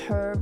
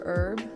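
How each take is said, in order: First: The word begins with an H sound. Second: The word begins with a vowel sound. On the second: "without the H"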